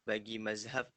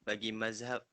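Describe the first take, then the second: No difference in how they are said.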